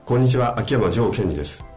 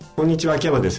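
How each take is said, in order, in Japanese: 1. 声は深くて、胸から響いている。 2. 声は細くて、喉から出ている。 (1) "みぞおちから喉口に来て響いてるっていうイメージで喋ると" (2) "喉から声を出すっていうとこんな感じですね"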